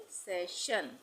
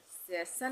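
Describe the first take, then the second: First: सेशन said "se-shan"; correct SH sound. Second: सेशन said "se-san"; second syllable of सेशन with plain S, not SH; wrong S sound. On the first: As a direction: clear SH starting the second syllable of सेशन. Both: Shown as a demonstration. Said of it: "नहीं बोलेंगे".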